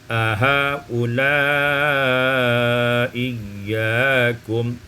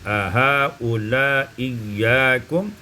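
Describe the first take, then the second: First: The long vowel is held moderately long. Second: The long vowel is held briefly.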